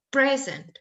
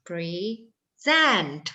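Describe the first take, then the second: First: The stress is on the first syllable. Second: The stress is on the second syllable. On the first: "kalau silabul pertama yang stres, maka dia yang ditekan" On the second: "kalau yang ditekan yang kedua"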